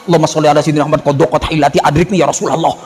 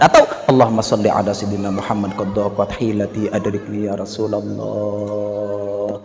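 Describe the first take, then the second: First: It is said in a curt, unfriendly way. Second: It is said in a gentle, lyrical way.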